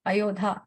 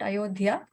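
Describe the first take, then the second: First: Ayodhya said short as yo-daa, no i sound, long final a; the right Ayodhya, clipped to yo-daa; corrected pronunciation. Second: Ayodhya said as a-yo-dhi-yaa, with an extra i sound before the long final a; the mistaken Ayodhya, drawn out as a-yo-dhi-yaa; wrong pronunciation. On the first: Correcting herself on the name Ayodhya, the right version yo-daa. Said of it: "not Ayodhya". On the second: Correcting herself on the name Ayodhya, the wrong version a-yo-dhi-yaa. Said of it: "not Ayodhya, Ayodhya". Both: Shown as a demonstration.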